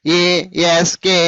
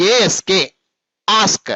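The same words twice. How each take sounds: First: ASK slow, each letter apart; divided letters. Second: ASK run together as one unit; joined letters. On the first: Teacher showing pupils what not to say, ASK slowly divided. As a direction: break ASK up with gaps between letters. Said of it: "అనరాదు". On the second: Teacher modelling for pupils how to say it, ASK joined without breaks. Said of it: "అన్ని కలిపేసి చెప్పేస్తూ ఉండాలి". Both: Shown as a demonstration.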